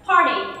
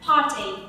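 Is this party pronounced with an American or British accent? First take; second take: American; British. First: The r is sounded and the t sounds like d. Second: Long a, no r, and a crisp t sound. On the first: "Theo cách phát âm của người Mỹ thì mình phải có âm r, par, và âm ch sẽ được phiên âm là d" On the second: "nếu mà theo cách phát âm của người Anh thì mình sẽ là âm a dài, không có âm r, và phát âm là âm ch"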